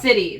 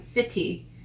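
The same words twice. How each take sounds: First: The middle consonant sounds like a soft D. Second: The middle consonant is a crisp T. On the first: This is how people casually say it locally. "We say city almost with a D sound" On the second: This is the more formal way to say it. "city is more proper"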